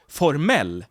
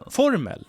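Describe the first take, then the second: First: The stress is on the last syllable. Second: The stress is on the first syllable.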